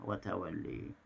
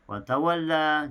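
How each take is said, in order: First: The final vowel is tilted toward e. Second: The final vowel is an open a.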